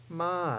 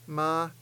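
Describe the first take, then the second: First: The pitch falls from high to low. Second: The pitch stays high. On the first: "ma is the drop tone" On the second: "ma is the high tone"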